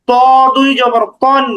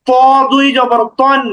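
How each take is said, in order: No difference in how they are said.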